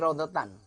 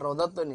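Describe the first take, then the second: First: The word ends with an 'an' sound. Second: The word ends with an 'un' sound. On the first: The speaker calls it right. "tapi rodotan" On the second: The speaker calls it wrong. "bukan bukan rodotun ini"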